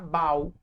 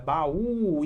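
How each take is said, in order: First: The vowels merge into one syllable. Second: The vowels split, with stress on the last. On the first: The speaker calls it wrong. "se eu não acentuar, vai virar bau" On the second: The speaker calls it right. "Qual é a sílaba mais forte de baú? É a última"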